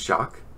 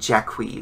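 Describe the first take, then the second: First: The name is said in a plain English way. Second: The name is said in a Japanese-style way.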